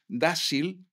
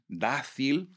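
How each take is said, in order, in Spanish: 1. La consonante antes de la i es un sonido s. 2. La consonante antes de la i es un sonido th. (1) "decís dásil" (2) "tenéis que decir dácil"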